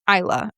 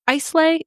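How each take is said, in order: First: The name ends with a short 'uh' vowel. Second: The name ends with an 'ay' vowel sound. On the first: This is the local pronunciation. The speaker calls it right. "Isla is how it's pronounced" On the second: The speaker is guessing from the spelling. The speaker calls it wrong. "I'm not really sure how to pronounce it"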